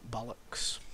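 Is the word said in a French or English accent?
English. It is said in a plain English accent.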